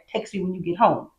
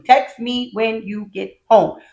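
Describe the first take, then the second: First: Said in the usual way. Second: Slow and deliberate; slow, even stress on every word of "Text me when you get home"; literal, word by word. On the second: Shown as a demonstration.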